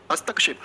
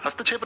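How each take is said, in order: First: हस्तक्षेप with a clear k-sh cluster; correct क्ष sound. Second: हस्तक्षेप mispronounced as "hasta-chhep"; wrong छ sound. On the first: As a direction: say हस्तक्षेप as "hastak-shep". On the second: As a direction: replace the k-sh in हस्तक्षेप with chh. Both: Shown as a demonstration. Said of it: "नहीं बोलोगे इसको कभी भी".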